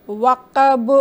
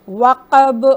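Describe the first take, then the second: No difference in how they are said.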